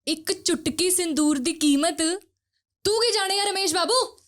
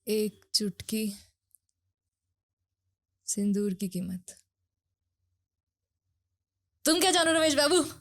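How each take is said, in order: First: The line is said in an angry tone. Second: The line is said calmly, without anger.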